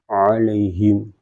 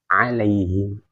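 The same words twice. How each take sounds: First: The word sounds heavy and dark. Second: The word sounds light and thin. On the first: The speaker calls it wrong. "itu kan tebal" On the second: The speaker calls it right. "harus tipis. Senyum"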